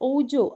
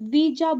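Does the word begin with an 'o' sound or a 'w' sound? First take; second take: o sound; w sound. First: The word begins with an 'o' vowel sound. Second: The word begins with a 'w' consonant sound. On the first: The speaker calls it wrong. "ഓജോ അങ്ങനെയല്ല pronunciation" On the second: The speaker calls it right. "യഥാർത്ഥത്തിലുള്ള pronunciation"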